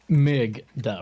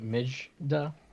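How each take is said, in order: First: The middle consonant is a hard g. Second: The middle consonant is not a hard g. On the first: "the G is like as in G as in good, a G sound" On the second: "or is it Mijda?"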